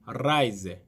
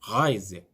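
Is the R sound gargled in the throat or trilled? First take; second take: trilled; gargled. First: The r is trilled with the tongue. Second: The r is gargled in the throat. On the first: This is how it is said when singing. "노래할 때는" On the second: This is how it is said in ordinary speech. "이건 독일 사람들이 하는 거고요"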